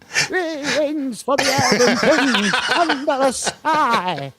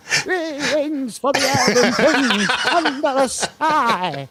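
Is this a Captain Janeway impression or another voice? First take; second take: Janeway; Janeway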